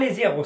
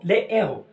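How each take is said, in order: First: A z sound links 'les' to the next word. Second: No z sound links 'les' to the next word. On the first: The speaker calls it wrong. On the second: The speaker calls it right.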